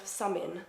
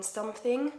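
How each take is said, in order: First: "summing" for something, with no th; Essex pronunciation. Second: Said in the usual way. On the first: Shown as a demonstration. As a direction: say "summing" the Essex way, middle th dropped. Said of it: "an Essex accent".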